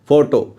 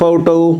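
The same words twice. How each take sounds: First: The second vowel is reduced to schwa. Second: Both vowels are full 'o' sounds. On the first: "इसमें पहला ओ तो जो है वो ओ की आवाज़ में ही है, दूसरा श्वा साउंड में चला गया।" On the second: "फोटो में दोनों जो ओ हैं वो ओ की साउंड दे रहे हैं।"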